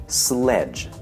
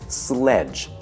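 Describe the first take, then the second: The two takes are said the same way.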